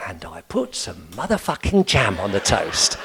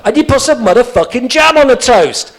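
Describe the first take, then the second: First: Put-on old man calmly repeating the swear back; old man's calm echo. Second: Loud, high, furious shout; fed-up listener shouting at the old man; exasperated outburst. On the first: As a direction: answer the outburst deadpan. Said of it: "So he'd be there going". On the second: Retold or imitated. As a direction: lose patience and yell it.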